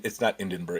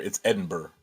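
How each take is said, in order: First: Edinburgh said as "In-den-burgh", with an n after the first vowel; the mispronounced Edinburgh, nasal start; wrong pronunciation. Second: Edinburgh said as "Ed-en-burgh", clean start, no n; the corrected Edinburgh, falling; right pronunciation. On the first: Correcting himself, says the wrong Edinburgh first. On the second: Correcting himself, says the right Edinburgh. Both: Shown as a demonstration.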